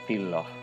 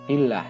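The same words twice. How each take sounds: First: The L in Allah sounds heavy and thick. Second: The L in Allah sounds light and thin. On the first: The speaker calls it wrong. "tidak boleh" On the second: The speaker calls it right. "maka dibaca"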